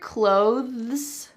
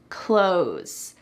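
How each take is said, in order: First: The TH sound is clearly pronounced. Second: The TH sound is dropped, like close.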